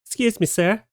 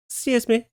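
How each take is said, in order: First: High, sweet pleading cat voice asking "Excuse me, sir" with a rising tune; a lightly voiced cat asking nicely, "Excuse me" lifted up; polite begging cat. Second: High cat voice with "Excuse me" falling at the end; a lightly voiced cat repeating its request, the tune dropping down; polite begging cat. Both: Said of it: "politely asking a tourist for some of his food".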